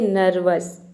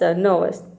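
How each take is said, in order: First: The R sound is fully pronounced. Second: The R sound is left silent. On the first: The speaker calls it wrong. "यहाँ पे आर को पूरा pronounce कर देते हैं, तो आपका प्रोनाउंसिएशन रॉन्ग हो जाता है" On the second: The speaker calls it right. "आपको केवल तीन ही लेटर को प्रोनाउंस करना है"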